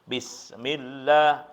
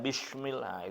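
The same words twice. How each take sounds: First: The s is a plain s with spread lips. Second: The s sounds like a hushing sh. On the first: The speaker calls it right. "sin kecil itu meringis" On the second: The speaker calls it wrong. "itu salah, itu shin"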